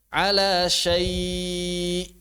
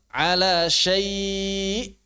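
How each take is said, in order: First: The final glottal catch is released softly. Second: The final glottal catch is pushed with emphasis. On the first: "tanpa naber" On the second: "Pakai naber"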